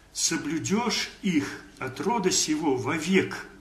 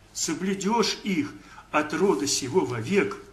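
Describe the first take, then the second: The two takes are said the same way.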